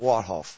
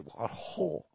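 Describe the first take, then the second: First: The second part sounds like 'hoff'. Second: The second part sounds like 'hall'.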